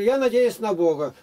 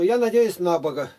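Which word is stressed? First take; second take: Бога; на. First: The stress falls on the noun Бога. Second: The stress falls on the preposition на. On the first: The speaker calls it right. "Я говорю" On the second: The speaker calls it wrong. "у них всегда ударение на предлог"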